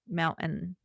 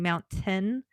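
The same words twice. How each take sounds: First: The T in the middle is dropped. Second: The T in the middle is clearly pronounced. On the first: "I'm like mountain, forgetting the T" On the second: "I'm not saying mountain"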